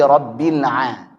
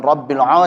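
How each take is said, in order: First: "Rabbil a" slow, with an open thin "a"; correct thin ain. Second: "Rabbil a" with the last vowel rounded to "o"; wrong thick ain. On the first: Teacher corrects the mistake, slow thin "a". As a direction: draw out a clear, unrounded "a" after "Rabbil". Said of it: "tapi Rabbil a". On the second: Teacher warns against it, heavy rounded "a". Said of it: "Bukan Rabbil a". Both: Shown as a demonstration.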